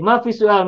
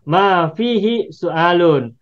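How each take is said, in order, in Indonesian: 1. Suku kata hi dan akhiran terakhir dihilangkan. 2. Setiap suku kata diucapkan, termasuk hi dan akhirannya.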